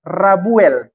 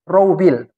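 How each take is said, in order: First: The name begins with 'Ra' before the b. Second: The name begins with 'Rou' before the b. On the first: The speaker calls it wrong. "terbalik itu. Tidak begitu bacanya" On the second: The speaker calls it right. "Ro dulu baru wow"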